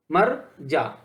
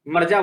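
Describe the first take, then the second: First: "मर जा" split into two separate words; juncture pause. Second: Said in the usual way. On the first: Shown as a demonstration. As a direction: clear break between मर and जा. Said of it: "जो संगम हो रहा है". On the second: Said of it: "इसका अगर हम विभाजन करें".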